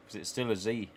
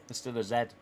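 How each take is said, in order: First: Z said as "zee"; American Z. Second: Z said as "zed"; British Z. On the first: Streamer joking about renaming Zayna, Z as "zee". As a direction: say the letter Z the American way, rhyming with "see". Repeats letter, American then British. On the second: Streamer correcting the letter for chat, Z as "zed". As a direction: say the letter Z the British way, rhyming with "bed". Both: Shown as a demonstration.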